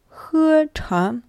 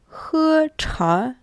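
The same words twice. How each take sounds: The two takes are said the same way.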